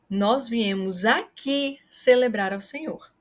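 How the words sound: The word aqui is stressed. It highlights the place. "Se você quer chamar a atenção para o local"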